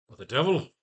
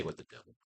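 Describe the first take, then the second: First: Louder, higher startled exclamation; exclaimed. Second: Whispered under the breath; whispered try. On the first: Writer tries Doctor's reaction line, loud and startled. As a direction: blurt it out in shock. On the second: Writer tries Doctor's reaction line, whispered. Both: Shown as a demonstration. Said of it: "Now he'd say".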